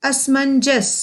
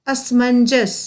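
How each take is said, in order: Both takes have the same delivery.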